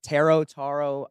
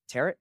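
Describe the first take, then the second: First: The word ends in an 'oh' sound. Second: The word rhymes with carrot. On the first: "Is that how you say it?" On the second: "Can we say it tarot like carrot?"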